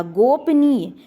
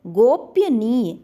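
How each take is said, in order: First: गोपनीय said crisply as "gop-niye"; the correct pronunciation, firm; correct form. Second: Slow, drawn-out गोपनीय as "gop-ya-niye"; the incorrect way, stretched out; wrong form shown. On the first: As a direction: give गोपनीय cleanly, no extra syllable. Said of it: "गोपनीय शब्द क्या है? शुद्ध है". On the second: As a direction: spell out गोपनीय syllable by syllable with an extra "ya". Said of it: "जबकि गोपनीय नहीं होता". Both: Shown as a demonstration.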